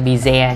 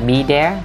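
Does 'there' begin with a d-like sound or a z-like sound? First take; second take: z-like; d-like. First: 'There' begins with a z-like sound. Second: 'There' begins with a d-like sound. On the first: The speaker calls it wrong. "đừng có be there nha" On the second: The speaker calls it right. "bạn đọc như chữ the cũng được"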